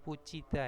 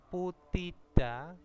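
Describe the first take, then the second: First: The middle consonant is a ch sound. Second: The middle consonant is a plain t sound. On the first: "kalau dilafalkan seperti ini menjadi pucida" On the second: "putida itu"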